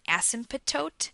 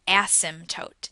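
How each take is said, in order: First: The middle P and T are clearly pronounced. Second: The middle P and T are almost silent. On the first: "you can pronounce the P and the T" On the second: "the P and the T in the middle are almost silent"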